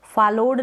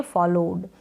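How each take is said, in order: First: फॉलोड said wrongly as "faloɖ" with an open a; wrong pronunciation. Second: फॉलोड said as "folod" with a rounded o; correct pronunciation. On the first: Teacher warning students, saying फॉलोड as "falod". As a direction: show the mistake: फॉलोड as "falod". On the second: Teacher giving students the correct फॉलोड, said as "folod". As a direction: model it clearly: फॉलोड as "folod". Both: Shown as a demonstration. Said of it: "इसको फॉलोड ना पढ़ें".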